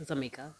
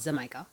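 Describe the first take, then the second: First: "Jamaica" said softly as za-MEE-ka; alternative pronunciation. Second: "Jamaica" said with a Z start and MY in the middle; MY pronunciation. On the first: Host offering the other option, "Jamaica" softly as za-MEE-ka. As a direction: other option: "Jamaica" with Z start, long vowel in the middle. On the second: Host naming the carnival band, "Jamaica" as za-MY-ka. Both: Shown as a demonstration. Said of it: "whichever one you want to say".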